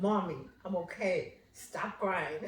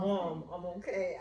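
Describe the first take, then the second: First: A hint of an embarrassed child, softer; lightly voiced daughter telling mom to stop; mild mock daughter. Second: Softer, mock-irritated through teeth; through clenched teeth. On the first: Daughter calmly telling crying mother to stop, lightly voiced. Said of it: "She's like". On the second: Daughter hushing her mother through gritted teeth. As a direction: lightly imitate a kid gritting her teeth. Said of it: "And you biting your teeth like".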